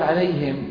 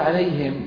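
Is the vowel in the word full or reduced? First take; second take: reduced; reduced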